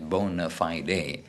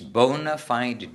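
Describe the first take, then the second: First: It is said the older traditional way. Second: It is said the common modern way. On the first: "the actual correction, English pronunciation is" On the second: "I don't think people do that nowadays"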